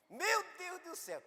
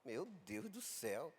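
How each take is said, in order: First: "Meu Deus do céu" squealed high and breathless like a thrilled woman; excited squeal. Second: "Meu Deus do céu" said low, soft and slow, no excitement; calm man. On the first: Woman reacting to a miracle, "Meu Deus do céu" in a high squeal. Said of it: "de mulher pra mulher". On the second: Pastor answering on the phone, "Meu Deus do céu" low and calm. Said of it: "Eu digo". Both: Retold or imitated.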